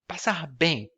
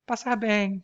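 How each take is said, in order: First: It is said in a hostile, dismissive tone. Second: It is said in a friendly, pleasant tone. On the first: Go to hell, I hate you. "when she says, actually, go to hell" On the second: Take care, goodbye. "with a uh, nice intonation"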